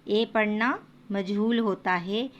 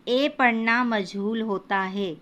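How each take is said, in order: No difference in how they are said.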